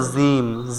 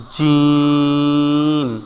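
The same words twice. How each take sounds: First: জিম with a buzzing z from the tongue tip; mistaken zim pronunciation. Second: জিম from mid-tongue, vowel held long; slow, softer, drawn-out জিম on a level note; correct jim pronunciation. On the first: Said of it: "জিহ্বার আগা দিয়ে বলে". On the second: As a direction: stretch জিম with a firm palatal j. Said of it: "এখানে হবে জিম, জিহ্বার মধ্যখান". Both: Shown as a demonstration.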